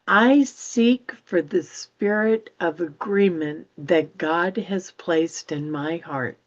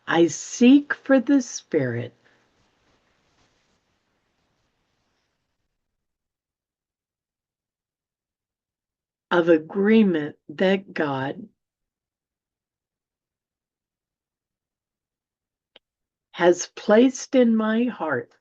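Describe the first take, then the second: First: It is read at a normal, quicker pace. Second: It is read at a slower pace.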